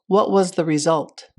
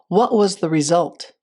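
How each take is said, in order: The two takes are said the same way.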